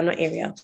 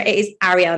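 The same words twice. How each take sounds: First: "Ariel" as AIR-ee-ul, dropped softer; mispronunciation. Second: "Ariel" with an open A, Arry-EL; correct pronunciation. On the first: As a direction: start "Ariel" like the word air. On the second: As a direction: stress the final EL of "Ariel". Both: Retold or imitated.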